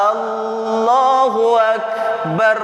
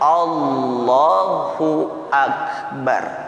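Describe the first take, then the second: First: The opening vowel of Allahu is drawn out long. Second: The opening vowel of Allahu is kept short. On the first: It asks whether God is great. The speaker calls it wrong. "Seorang imam dipanjangkan Allahu akbar" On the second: It states that God is great. The speaker calls it right. "Yang benar Allahu akbar"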